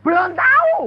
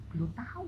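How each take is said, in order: First: High, loud disbelieving question; shocked echo. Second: Soft, offhand answer; calm reply. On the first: Pastor repeating the answer in disbelief, loud shocked echo. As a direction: throw the words back in alarm. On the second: Preacher telling the pastor he doesn't know yet, soft and unbothered. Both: Retold or imitated.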